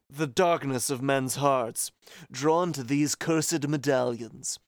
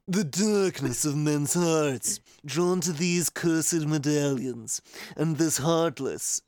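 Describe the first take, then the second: First: It is read in a plain voice. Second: It is read in a put-on Luxord voice.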